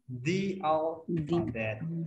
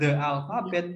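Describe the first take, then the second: First: The word 'the' is said with a long 'thee'. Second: The word 'the' is said with a short 'thuh'. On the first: The speaker calls it right. "tapi the alphabet" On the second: The speaker calls it wrong. "bukan the alphabet"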